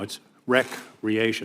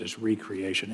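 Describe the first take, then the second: First: Said as the ordinary word for leisure. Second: Said as re-creation, with a separate re- prefix. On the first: It means leisure activity. The speaker calls it wrong. "That's not what it is" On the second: It means creating something anew. The speaker calls it right. "the recreation of people's hearts and souls"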